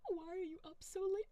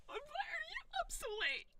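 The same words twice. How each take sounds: First: Said in the usual way. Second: Much higher, squealing whine of the question; squeaky echo. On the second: Pretend. Streamer throws a viewer's question back, squeaky.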